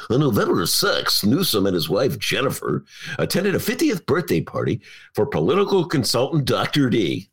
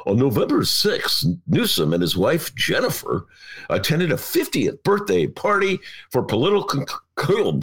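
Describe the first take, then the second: First: Smooth announcer read of the news copy; radio voice. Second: Announcer read, a touch formal; radio voice. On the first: Host retrying the CNN read in his radio voice. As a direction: read it clean like a radio newsman. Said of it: "Try it again". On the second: Host reading a CNN account in his radio voice. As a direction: read it like a news anchor on air. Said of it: "I will read it in my radio voice". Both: Shown as a demonstration.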